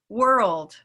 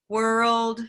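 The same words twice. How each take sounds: First: It is said with natural, varied pitch. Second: It is said in a flat, robotic monotone.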